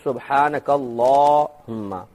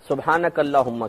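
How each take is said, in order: First: The vowel in 'la' is drawn out long. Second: The vowel in 'la' is said short. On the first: The speaker calls it right. "ला को लंबा खींचेंगे" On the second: The speaker calls it wrong. "सुब्हानक अल्लाहुम्मा कहते हैं"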